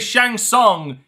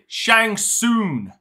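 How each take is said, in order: First: The second word ends with an ng sound. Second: The second word ends with an n sound. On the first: The speaker calls it right. "He didn't say Shang Tsung" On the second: The speaker calls it wrong. "he said Shang Soon. Soon. No G on the end"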